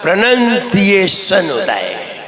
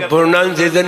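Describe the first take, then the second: First: प्रोनंसिएशन with short "nun" sound, said slowly; slow, careful "pro-nun-ciation"; correct pronunciation. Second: प्रोनाउंसिएशन said with "nown" like pronounce; wrong pronunciation. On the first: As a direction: spell out the right प्रोनंसिएशन carefully. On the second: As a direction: give the wrong प्रोनाउंसिएशन as the mistake. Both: Shown as a demonstration. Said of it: "प्रोनाउंसिएशन नहीं होता".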